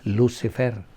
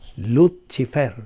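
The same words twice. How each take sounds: First: The c is pronounced like s. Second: The c is pronounced like ch. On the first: This is the English pronunciation. "ato naman yun in English" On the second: This is the Latin pronunciation. "sa Latin, good, ang pag-pronounce ni mo og si, chi"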